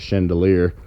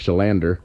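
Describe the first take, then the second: First: The name sounds like the word chandelier. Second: The name sounds like shuh-LAN-der. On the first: The speaker calls it wrong. "I call it I pronounce it" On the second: The speaker calls it right. "or sorry"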